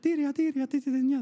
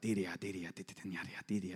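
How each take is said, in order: First: It sounds sweet and lovely. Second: It sounds eerie and creepy.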